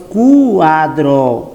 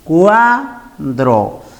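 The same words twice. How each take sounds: First: The closed vowel u is said louder. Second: The open vowel a is said louder. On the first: The speaker calls it wrong. "no decimos cuadro" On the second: The speaker calls it right. "Esta vocal abierta tiene mayor intensidad"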